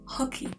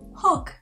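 First: The name is said with two syllables. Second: The name is said with one syllable. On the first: The speaker calls it wrong. "I just call him Hockey" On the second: The speaker calls it right. "it should be easy"

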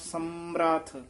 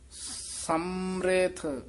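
First: The m and r join with no vowel. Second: An i vowel is sounded after the r. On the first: The speaker calls it wrong. "ਜੇ ਸਿਹਾਰੀ ਮੰਮੇ ਨੂੰ ਨਾ ਲੱਗੀ ਹੁੰਦੀ ਫਿਰ ਬੋਲਣਾ ਸੀ ਆਪਾਂ" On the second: The speaker calls it right. "ਜਿਹੜਾ ਮੰਮੇ ਦੀ ਸਿਹਾਰੀ ਹੈ ਨਾ, ਉਹ ਰਾਰੇ ਨੂੰ ਲੱਗ ਜਾਣੀ ਹੈ"

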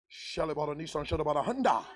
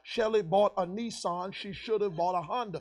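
First: It is said fast, like speaking in tongues. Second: It is said slowly and clearly.

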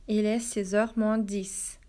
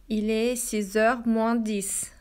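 No difference in how they are said.

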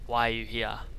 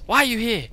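First: It is said in a plain reading voice. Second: It is said in a sharp, cutting voice.

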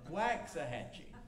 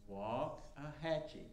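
First: The first syllable sounds like wax. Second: The first syllable sounds like walk. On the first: "why can't we just say W-A-X, wax?" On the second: "simply say walk. Like you walk"

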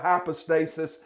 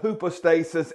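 First: The word is said the English way. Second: The word is said the Greek way. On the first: "We call it hypostasis" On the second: "instead of hypostasis"

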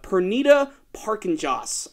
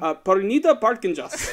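First: The name is said in the speaker's normal accent. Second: The name is said in an Indian accent.

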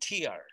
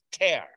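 First: It is pronounced like the word for teardrop. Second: It is pronounced like the word for rip. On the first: It means a drop from the eye. The speaker calls it wrong. "en todo el mundo lo pronuncian tear. Y si lo pronuncias tear, quiere decir lágrima" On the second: It means a rip in tissue. The speaker calls it right. "Desgarro es tear"

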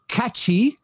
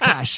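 First: The word is said with two syllables. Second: The word is said with one syllable. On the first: The speaker calls it wrong. "C-A, that's how you pronounce it, yes?" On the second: The speaker calls it right. "no, I'm just kidding, it's cash"

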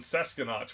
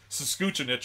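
First: The name is read sound by sound from spelling. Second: The name is said with its local pronunciation. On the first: A visitor guessing from the written name. The speaker calls it wrong. "I call it Sesquinach because I read it like it's... phonetic" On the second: How people there actually say the name. The speaker calls it right. "it's pronounced like Saskuchinich"

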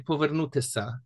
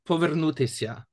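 First: The ending has a plain, hard sa sound. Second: The ending has a soft, palatalized sya sound. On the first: "in Polisia they would say povernutisa" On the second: "which at the end has that sya sound"

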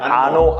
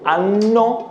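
First: The n sound is short. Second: The n sound is held long. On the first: It names a rude body part. The speaker calls it wrong. "anno는 안 좋은" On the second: It means year. The speaker calls it right. "무조건 anno로 발음해야 돼"

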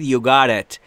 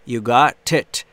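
First: The words run together smoothly. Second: The words are said more separately.

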